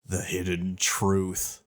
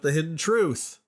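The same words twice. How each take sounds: First: It is said in a special put-on voice. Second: It is said in a normal speaking voice. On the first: The speaker calls it right. "in the voice" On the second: The speaker calls it wrong. "I didn't say it in the voice"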